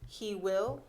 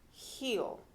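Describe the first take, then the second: First: Both words are said fully and separately. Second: The words merge into one short syllable.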